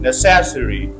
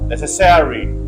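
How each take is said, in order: First: The stress is on the second syllable. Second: The stress is on the third syllable. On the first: "If you put on second syllable" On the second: "if you put stress on third syllable"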